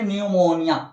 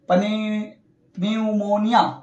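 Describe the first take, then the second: First: The word starts without a p sound. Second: A p sound is said at the start. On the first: The speaker calls it right. "पी नहीं पढ़ेंगे" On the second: The speaker calls it wrong. "नहीं गलत हो जाएगा"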